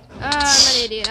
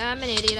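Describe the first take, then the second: First: Annoyed at himself, loud; loud self-scolding. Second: Said in the usual way. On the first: Real, not acted. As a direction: yell it after the fail. Fails jump, self-scolding.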